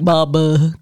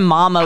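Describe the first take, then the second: First: It is said in a stuffy, congested voice. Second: It is said in a clear, normal voice.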